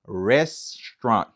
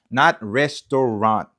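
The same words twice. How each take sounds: First: Restaurant said slowly, French-style ending dropped; correct pronunciation. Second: Restaurant with a full o sound in the middle, rest-o-rant; wrong pronunciation. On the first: Teacher modelling Restaurant slowly for students. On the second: Teacher showing students the wrong way to say restaurant. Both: Shown as a demonstration.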